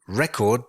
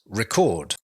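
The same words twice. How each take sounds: First: It carries the noun's stress pattern. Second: It carries the verb's stress pattern. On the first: It names a stored account of information. "record is a noun" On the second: It means to store information. "the pronunciation changes slightly if we use it as a verb"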